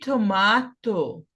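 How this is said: It is said with a British accent.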